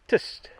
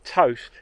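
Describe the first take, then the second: First: It is said in an older Norfolk accent. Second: It is said in a standard accent.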